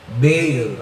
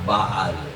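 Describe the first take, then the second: First: The name is said with American English sounds. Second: The name is said with Hebrew/Tagalog-like sounds. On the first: "Yung mga Amerikano, pag Ingles, Baal ang pronunciation nila" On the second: "Pinopronounce ko yon Baal, kasi Hebrew parang Tagalog"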